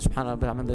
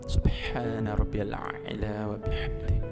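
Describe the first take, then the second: First: The phrase is rushed and slurred together quickly. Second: The phrase is drawn out very slowly. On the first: The words become unclear. "Jangan terlalu cepat" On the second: The prayer drags on too long. "Jangan terlalu pelan"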